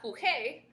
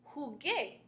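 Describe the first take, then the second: First: The consonant before the final vowel is not a hard g. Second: The consonant before the final vowel is a hard g. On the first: The speaker calls it wrong. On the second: The speaker calls it right. "we have to get a ge sound"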